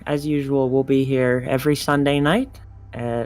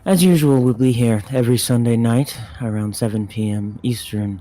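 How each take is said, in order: First: It is said in a normal speaking voice. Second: It is said in a smooth radio voice.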